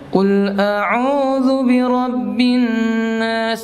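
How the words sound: The voice is pushed through the nose. The speaker calls it wrong. "Lewat hidung dia"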